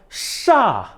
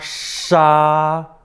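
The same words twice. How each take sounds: First: It is said with the fourth tone. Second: It is said with the first tone.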